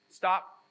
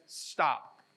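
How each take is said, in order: First: Stop, a commanding call to halt; firm command. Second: Said in the usual way. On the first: Retold or imitated. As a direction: bark Stop like God halting the march. God's command repeated with force.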